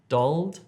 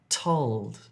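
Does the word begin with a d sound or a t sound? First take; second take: d sound; t sound. First: The word begins with a d sound. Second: The word begins with a t sound. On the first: The speaker calls it wrong. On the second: The speaker calls it right.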